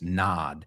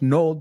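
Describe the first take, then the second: First: The vowel is an open 'ah' sound. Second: The vowel is a rounded 'oh' sound. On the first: The speaker calls it right. "La O es una A pura y dura" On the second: The speaker calls it wrong. "No es nod"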